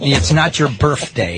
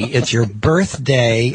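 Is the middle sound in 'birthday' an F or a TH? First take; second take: F; TH. First: Birthday is said with an F sound. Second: Birthday is said with a TH sound.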